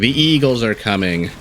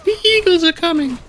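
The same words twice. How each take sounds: First: It is said in his normal voice. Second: It is said in a Samwise impression voice.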